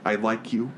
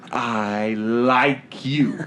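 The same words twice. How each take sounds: First: Said in the usual way. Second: Very drawn-out "I like you", every word stretched; exaggerated slow declaration. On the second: Shown as a demonstration. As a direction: stretch "I... like... you" out heavily for comic effect. Exaggerated repeat of the line.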